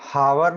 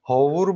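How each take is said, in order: First: It starts with an h and an 'a' vowel. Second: It starts with an h and an 'o' vowel. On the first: "हावर नहीं बोलते हैं उसको" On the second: "होवुर भी नहीं बोलते हैं उसको"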